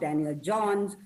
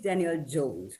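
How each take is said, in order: First: The surname's vowel is not an 'oh' sound. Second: The surname's vowel is an 'oh' sound. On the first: The speaker calls it wrong. "it is not Daniel Johns" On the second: The speaker calls it right. "it's Daniel Jones. O sound"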